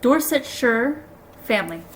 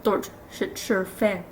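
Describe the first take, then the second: First: "Dorsetshire family" sounded out very slowly; careful pronunciation. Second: "Dorsetshire fam-" stumbled through and broken off; stumbled pronunciation. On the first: Reader retrying an English name, "Dorsetshire family" said slowly and carefully. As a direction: draw out "Dorsetshire" carefully, syllable by syllable. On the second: Reader tripping over an English place name, "Dorsetshire fam-" fumbled. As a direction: trip over "Dorsetshire fam-" and cut it short. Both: Real, not acted. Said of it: "How you English pronounce these things".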